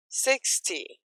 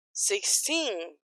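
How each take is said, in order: First: Sixty with a strong SIX, weak TY; "sixty", strong start fading off; stress on SIX. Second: Put-on sixteen with the final TEEN drawn out; "sixteen", long stressed ending. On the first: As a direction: lean on the first syllable of "sixty". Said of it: "a energia acaba no começo". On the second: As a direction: lean on the second syllable of "sixteen". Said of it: "tem força pra ir até o final". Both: Shown as a demonstration.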